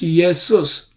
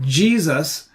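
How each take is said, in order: First: The name begins with a Y sound. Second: The name begins with a J sound. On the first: This is the older Latin pronunciation. "In Latin is also it is written I E S U S. It's pronounced Jesus" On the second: This is the recent English pronunciation. "Today's English pronunciation"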